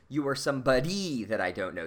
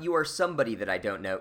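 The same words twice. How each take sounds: First: The stress is on the third syllable of somebody. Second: The stress is on the first syllable of somebody. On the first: "she's accenting on the third syllable of the word somebody" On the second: "it's not"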